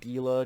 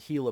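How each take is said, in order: First: It begins with a hard G sound. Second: It begins with an H sound. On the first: The speaker calls it wrong. "I keep wanting to mispronounce it Gila because it's spelled G I L A" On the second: The speaker calls it right. "but it's a Gila monster"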